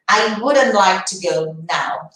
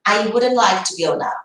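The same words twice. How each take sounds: First: Each word spaced out for the class; slow careful model. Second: Said in the usual way. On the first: Shown as a demonstration. Teacher modelling for students, very slow. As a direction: slowly lay out "I wouldn't like to go now". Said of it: "teacher models the sentence slowly". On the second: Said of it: "repeated at normal speed".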